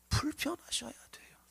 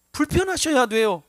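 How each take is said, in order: First: 불편하셔야 돼요 breathed in a soft whisper. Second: 불편하셔야 돼요 called out loud, falling firmly; forceful exhortation. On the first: Preacher whispering the exhortation to the congregation. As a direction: drop to a hushed whisper on 불편하셔야. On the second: Preacher urging the congregation, loud and forceful. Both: Acted.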